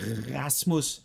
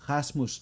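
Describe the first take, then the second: First: The R sound is exaggerated and strong. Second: The R has only slight friction in the throat. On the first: The speaker calls it wrong. "the exaggeration would be Rasmus, but then obviously nobody nobody says that" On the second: The speaker calls it right. "People say Ra, Ra, Rasmus, so there's a slight friction on the vocal cords"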